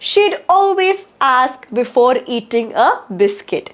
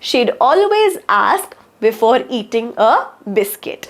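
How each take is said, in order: First: The words are shortened to she'd. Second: The same.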